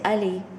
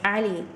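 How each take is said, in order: First: It begins with a plain open vowel. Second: It begins with a tight sound from the throat. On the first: The speaker calls it wrong. "we're not really saying it right" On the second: The speaker calls it right. "Or it's Ali. So it's ah. It's a very definite sound"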